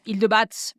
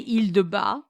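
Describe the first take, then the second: First: It is said as read from its spelling. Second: It is said the way locals say it. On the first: The speaker calls it wrong. "I would have just said" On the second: The speaker calls it right. "the locals say"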